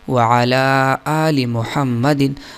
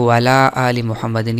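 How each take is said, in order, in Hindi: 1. 'ala' से पहले हलक़ की आवाज़ साफ़ तौर पर बरकरार रहती है। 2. हलक़ की आवाज़ छोड़ दी जाती है, और 'waala' में मिल जाती है।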